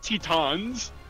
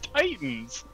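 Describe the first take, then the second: First: The first vowel sounds like 'teh'. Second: The first vowel sounds like 'tie'. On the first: The speaker calls it wrong. "not Tetons" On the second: The speaker calls it right. "It's Titans"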